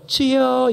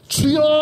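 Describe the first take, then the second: First: It is said in a small, weak voice. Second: It bursts out in a loud, powerful voice.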